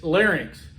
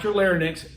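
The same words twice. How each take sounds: First: "larynx" said as "lar-inks"; careful model of "larynx" as "lar-inks"; correct larynx. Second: "larynx" said as "lar-nix"; mispronounced larynx. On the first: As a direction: pronounce "larynx" clearly, ending in "-inks". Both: Shown as a demonstration. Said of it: "not your, not your larynx".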